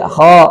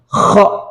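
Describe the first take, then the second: First: The kh is soft and smooth. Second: The kh is harsh and snore-like. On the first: The speaker calls it right. "Jadi kha-nya lebih halus ya dan nyaman didengar" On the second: The speaker calls it wrong. "terlalu mendengkur ... ini juga keliru"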